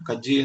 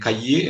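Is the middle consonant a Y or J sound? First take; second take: J sound; Y sound. First: The middle consonant is a J sound. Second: The middle consonant is a Y sound. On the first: This is the regional Kozhikode and Malappuram form. "കജ്ജ് എന്ന് പറയുന്ന" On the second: This is the usual form. "കയ്യ് എന്നതിന് പറയ പകരം"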